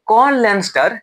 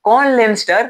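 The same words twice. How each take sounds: The two takes are said the same way.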